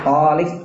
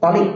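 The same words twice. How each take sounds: First: The first vowel is said long. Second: The first vowel is said short. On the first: It means divorced. "Kalau toknya dipanjangkan, taliq maknanya cerai" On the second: It means cheerful. "datang juga dalam bentuk taliq, lafaz taliq sama maknanya"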